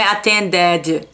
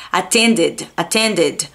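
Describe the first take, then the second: First: Attended ending in "DED-ee", with an added vowel; learner's attended with a full, open -ded; wrong heavy -ed. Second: Attended ending in a short, light "did"; correct ID ending. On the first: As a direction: overpronounce the ED of attended. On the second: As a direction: keep the last syllable of attended unstressed, no vowel after D. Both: Shown as a demonstration. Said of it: "não é attended".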